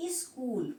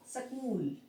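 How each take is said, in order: First: स्कूल with an I sound in front; spoken form. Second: स्कूल starting on S, no leading I; written form. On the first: Teacher showing how people say it, स्कूल with a leading i. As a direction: say स्कूल as "is-kool". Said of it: "बोलने में तो स्कूल आ रहा है". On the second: Teacher showing how it is written, स्कूल begun straight on s. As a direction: say स्कूल as "s-kool". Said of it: "लिखेंगे क्या". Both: Shown as a demonstration.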